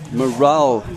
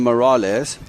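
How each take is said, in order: First: The name ends without an s sound. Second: The name ends with an s sound. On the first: The speaker calls it right. "Morale is the correct pronunciation" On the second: The speaker calls it wrong. "I was calling him Morales"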